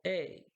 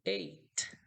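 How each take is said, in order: First: The word is short and crisp. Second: The word is forced and drawn out. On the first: The speaker calls it right. "temos que falar ele mais sucinto" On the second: The speaker calls it wrong. "As pessoas forçam um pouco no oito e falam tipo eight"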